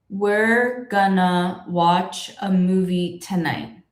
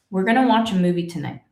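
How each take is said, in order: First: The sentence is spoken slowly. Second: The sentence is spoken at normal speed. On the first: The speaker calls it wrong. "if I spoke it slowly" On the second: The speaker calls it right. "speaking confidently and normal speed"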